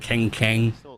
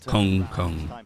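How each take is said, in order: First: The vowel sounds like an E. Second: The vowel sounds close to a U. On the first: The speaker calls it wrong. "It's not E, it's not Keng Keng" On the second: The speaker calls it right. "It's more like a U sound than anything"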